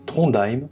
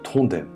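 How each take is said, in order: First: The name is said with a German pronunciation. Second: The name is said without a German pronunciation. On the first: The speaker calls it wrong. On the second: The speaker calls it right.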